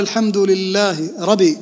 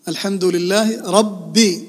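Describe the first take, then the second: First: The B sound in rabbi is short and single. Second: The B sound in rabbi is held and doubled. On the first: The speaker calls it wrong. "فلو قال الحمد لله ربي، ربي العالمين، ما تصلح" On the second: The speaker calls it right. "فيها شدة ربي"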